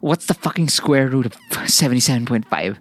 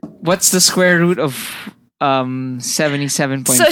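First: It is said in a sexy, seductive tone. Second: It is said in a formal, plain tone.

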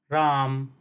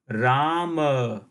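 First: The word ends on the consonant m. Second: The word ends on a full vowel a. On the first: This is the Hindi pronunciation. "the last syllable ma, is pronounced half" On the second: This is the Sanskrit pronunciation. "in Sanskrit, the same word will be pronounced as Rama"

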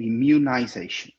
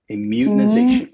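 First: It is said with a British pronunciation. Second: It is said with an American pronunciation.

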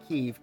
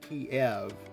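First: The name is pronounced in a non-Russian way. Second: The name is pronounced in the Russian way. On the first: The speaker calls it wrong. "not Kiev" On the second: The speaker calls it right. "the Russian pronunciation, the way it's always been"

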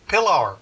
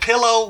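First: The word ends in an er sound. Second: The word ends in an oh sound.

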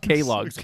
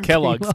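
First: The first syllable is said as 'kay'. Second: The first syllable is said as 'kel'. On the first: The speaker calls it wrong. "calls it K-Logs. Like, he didn't know how to pronounce it" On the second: The speaker calls it right. "not Kellogg's"

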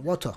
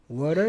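First: It is said with an Irish accent. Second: It is said with an American accent.

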